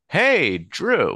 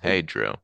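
First: It is said with a lot of emotion. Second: It is said calmly, with little emotion.

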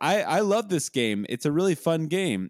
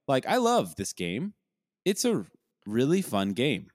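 First: The words are stressed in a natural way. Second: The words are stressed in an odd way. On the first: The speaker calls it right. "instead of saying like" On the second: The speaker calls it wrong. "It would be like"

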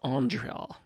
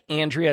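First: The name is pronounced in an unusual way. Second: The name is pronounced in the ordinary way. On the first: "they say it in a weird name" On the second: "instead of like Andrea"

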